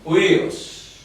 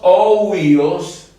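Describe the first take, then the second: First: The word begins with a u sound, no o. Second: The word begins with an audible o sound. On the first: The speaker calls it right. "La Y que está aquí ahoga el sonido de la Omicron" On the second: The speaker calls it wrong. "en vez de decir oh huíos"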